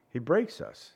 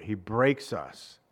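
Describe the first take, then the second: First: Said in the usual way. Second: "He breaks us" said lower and slow, falling hard on breaks; slow weighty stress. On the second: Shown as a demonstration. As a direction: drop low and lean slowly on "breaks". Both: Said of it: "repeated for emphasis".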